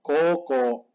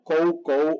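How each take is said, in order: First: Koko with pure, held Os; long O. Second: Kou with the U clearly sounded; both kou syllables as full diphthongs; wrong OU sound. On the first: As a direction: stretch koko to "kooko", no U. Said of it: "la pronunciación correcta es koko". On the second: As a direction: say kou as an "oh-oo" glide. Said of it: "si la pronuncian mal". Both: Shown as a demonstration.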